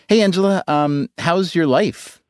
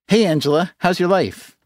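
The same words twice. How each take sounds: First: The greeting sounds sincere and heartfelt. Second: The greeting sounds insincere and offhand. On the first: The speaker calls it right. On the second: The speaker calls it wrong.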